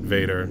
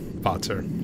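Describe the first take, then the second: First: The name is said like 'Vader'. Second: The name is said like 'Botzer'. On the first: The speaker calls it wrong. "I can't tell you times people have pronounced it Vader" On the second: The speaker calls it right. "It's meant to be Botzer"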